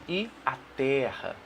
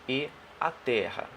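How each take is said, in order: Both takes have the same delivery.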